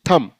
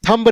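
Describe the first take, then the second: First: No b sound is heard at the end. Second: A b sound is heard at the end. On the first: The speaker calls it right. "बी silent हो जाएगा" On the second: The speaker calls it wrong. "नहीं"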